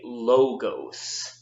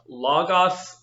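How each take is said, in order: First: The o vowels sound long, like omega. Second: The o vowels sound short, like omicron. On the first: The speaker calls it wrong. "it's really important that you don't say logos" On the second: The speaker calls it right. "So it is pronounced logos"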